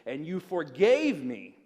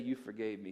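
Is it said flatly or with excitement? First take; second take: excitement; flatly. First: It is said with excitement, as an exclamation. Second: It is said flatly, without excitement.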